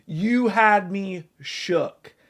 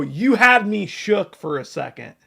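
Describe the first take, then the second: First: Slow, drawn-out repeat; slow mock-stunned repeat; slow emphasis. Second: Said in the usual way. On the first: Real, not acted. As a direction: stretch it out to drive it home.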